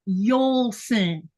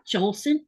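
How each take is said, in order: First: The name begins with a Y sound. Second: The name begins with a J sound. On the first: The speaker calls it right. "don't assume that because it starts with a J, it's going to be sounding like a J" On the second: The speaker calls it wrong. "It's not Jolson"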